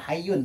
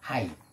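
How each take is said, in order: First: The word ends with a full -un ending. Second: The word stops short without its ending. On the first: This is the regular grammatical form. "bukan hayyun" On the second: This is how the verse reads it for the meter. "tapi dibaca hayy"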